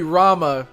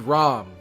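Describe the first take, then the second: First: The name ends with a final vowel sound. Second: The name ends without a final vowel sound. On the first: The speaker calls it wrong. "it wouldn't be Rama" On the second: The speaker calls it right. "you don't pronounce the A"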